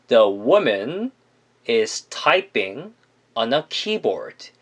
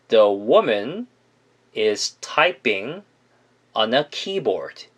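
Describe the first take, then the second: No difference in how they are said.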